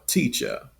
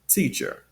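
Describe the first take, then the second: First: No R sound is heard at the end. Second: A strong R sound is heard at the end. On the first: "in a non-rhotic accent" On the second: "with that strong R sound at the end"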